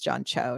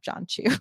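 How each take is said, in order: First: The surname ends with an 'oh' vowel. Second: The surname ends with an 'oo' vowel. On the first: The speaker calls it right. "which is John Cho" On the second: The speaker calls it wrong. "I think I just mispronounced the person's last name"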